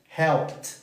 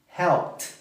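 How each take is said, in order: No difference in how they are said.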